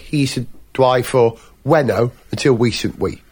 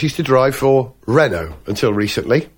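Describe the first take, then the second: First: Renault begins with a W sound instead. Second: Renault begins with a normal R sound.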